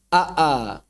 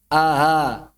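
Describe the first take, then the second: First: The second glottal stop is crisp and firm. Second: The second glottal stop is softened and breathy. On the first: "Ini muhaqqaqah" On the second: "kemudian yang kedua ditashil, maka suaranya menjadi aha"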